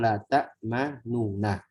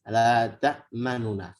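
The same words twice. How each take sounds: First: The vowel of 'nu' is given its full length. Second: The vowel of 'nu' is only partly voiced. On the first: "Asalkan la ta'manuna" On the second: "sekarang dibaca dengan ikhtilas"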